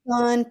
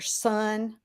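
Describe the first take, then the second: First: The s is lisped, like a th sound. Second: The s is a clear s sound.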